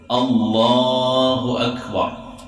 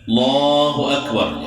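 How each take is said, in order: First: The opening vowel before the l is clearly pronounced. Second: The opening vowel is dropped, starting straight on l. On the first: The speaker calls it right. "Allah itu alif kelatah mulanya tuh" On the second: The speaker calls it wrong. "Tidak ada"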